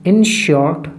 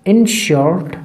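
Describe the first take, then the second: Both takes have the same delivery.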